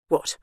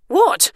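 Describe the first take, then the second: First: Said in the usual way. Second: Much higher, louder second what; alarmed what. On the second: Acted. Bernice unnerved, repeats question.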